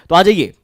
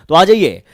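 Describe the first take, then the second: The two takes are said the same way.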